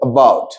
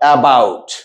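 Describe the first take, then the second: First: The first vowel is a short, light schwa. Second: The first vowel is a full, open vowel. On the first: The speaker calls it right. "অনেক ছোট এবং হালকা একটা sound" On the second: The speaker calls it wrong. "not about"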